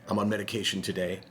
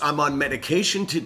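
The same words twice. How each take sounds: First: It is said meekly, as if ashamed. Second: It is said firmly, with strength. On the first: The speaker feels partly to blame. The speaker calls it wrong. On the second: The speaker does not care what others think. The speaker calls it right.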